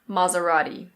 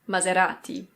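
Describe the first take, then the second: First: It is said with an American pronunciation. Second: It is said with an Italian pronunciation. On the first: "In American English, people usually say Maserati" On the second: "In Italian, this is Maserati"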